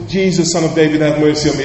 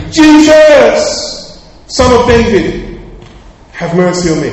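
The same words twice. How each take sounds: First: Mild imitation of calling out, barely raised; first cry to Jesus, only lightly projected; retold shout. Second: Full high shout, easing on the last plea; crying out even louder. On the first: Blind Bartimaeus calling to Jesus for mercy, a restrained retold shout. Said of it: "and he shouted". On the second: Acted. Blind Bartimaeus defying the crowd to reach Jesus, crying out louder. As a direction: bellow the name, then plead a little less loudly. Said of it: "He cried out even louder".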